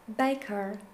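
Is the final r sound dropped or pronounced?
pronounced. The final r sound is pronounced.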